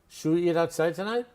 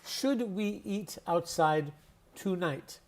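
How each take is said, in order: First: The words are relaxed and run together. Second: Each word is pronounced fully and carefully. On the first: "in street speak, we relax our mouth" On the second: "In standard English"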